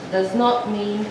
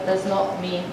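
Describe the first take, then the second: No difference in how they are said.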